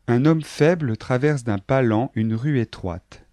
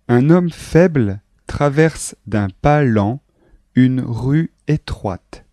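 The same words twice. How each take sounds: First: The sentence is read at normal speed. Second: The sentence is read at a slow pace. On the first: "Je vais lire maintenant ce texte à vitesse normale" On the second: "une fois lentement"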